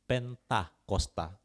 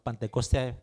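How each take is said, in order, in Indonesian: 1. Diucapkan Pen-ta-kos-ta, dengan vokal a. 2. Diucapkan Pen-te-kos-te, dengan vokal e. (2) "bukan Pentekoste"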